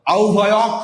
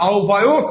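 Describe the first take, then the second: First: আও ভায়ক ending in open "awk"; the rejected "au-bhayawk"; wrong ending. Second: আও ভায়ক ending in closed "ok"; the approved "au-bhayok"; correct ending. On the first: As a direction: say au-bhayawk with an open final vowel. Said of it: "হবে না". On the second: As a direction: say au-bhayok with a rounded final vowel. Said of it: "হবে". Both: Shown as a demonstration.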